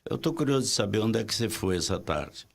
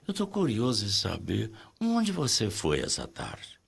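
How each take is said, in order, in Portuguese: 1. A entonação fica bastante plana do início ao fim. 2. A entonação sobe e desce, com melodia. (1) "Você pode dizer assim" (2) "mas fala assim: ... tem uma melodia"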